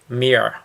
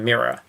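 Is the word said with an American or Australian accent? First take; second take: American; Australian. First: It is said with an American accent. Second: It is said with an Australian accent. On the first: "I've heard a few Americans on podcasts say" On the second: "instead of"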